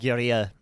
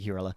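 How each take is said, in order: First: The word is said with a strong foreign accent. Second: The word is said in a plain English accent. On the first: "You said that real like full on accent" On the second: "but I'll just say guerrilla"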